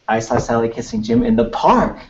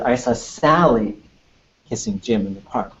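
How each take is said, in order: First: The word park carries the main stress. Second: The word Sally carries the main stress. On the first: The sentence is about where it happened. "I don't know why the park would be like, whoa" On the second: The sentence is about who was involved. "It's all about Sally"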